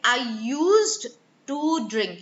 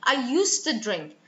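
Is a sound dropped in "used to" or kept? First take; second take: kept; dropped. First: Every sound in used to is clearly pronounced. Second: A sound in used to is dropped and merged. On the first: The speaker calls it wrong. "rather than saying I used to drink" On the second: The speaker calls it right. "elision, which is losing sounds when they come together"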